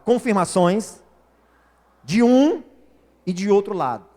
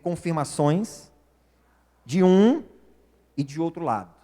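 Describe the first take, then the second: First: It is said loudly and forcefully. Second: It is said at normal volume.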